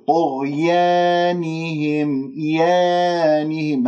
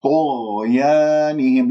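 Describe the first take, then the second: First: طغيانهم with aa bent toward a long e; tilted alif. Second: Slow طغيانهم with open jaw on long aa; pure alif. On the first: Teacher imitates the faulty imala, drawn-out fronted vowel. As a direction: spread the lips so يا leans to yeh. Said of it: "هذه يا ممالة، آه، ألف ممالة". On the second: Teacher models clean vowels for students, slow recitation. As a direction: stretch an open, untilted aa in طغيانهم. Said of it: "تخليص الحركات". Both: Shown as a demonstration.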